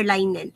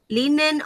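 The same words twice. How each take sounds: First: "linen" said LINE-en; alternate pronunciation. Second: "Linen" said LIN-en; short i starting "Linen", as in "lin"; alternate pronunciation. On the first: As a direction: open "linen" like the word "line". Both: Shown as a demonstration. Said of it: "Linen or linen".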